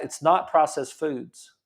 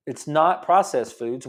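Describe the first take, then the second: First: Said in the usual way. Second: Slower, leaning on "not"; slow emphatic repeat. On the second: Shown as a demonstration. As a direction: drive home "not" in "It's not processed foods".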